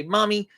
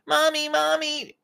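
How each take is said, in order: First: Said in the usual way. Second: Put-on high-pitched, drawn-out kid whine; whiny yelling child. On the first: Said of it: "You wanna come and say". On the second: Shown as a demonstration. Child runs yelling to mom about brother, whining. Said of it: "we don't wanna whine".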